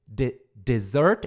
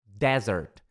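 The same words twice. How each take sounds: First: "dessert" drawn out slowly, stress on SERT; slow dessert demo. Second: "desert" with the first syllable DE hit strong; stress on DE. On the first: Teacher spells out and models "dessert" slowly. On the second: Teacher shows the strong DE in "desert". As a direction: lean on DE in "desert". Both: Shown as a demonstration. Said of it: "E o de é que é forte".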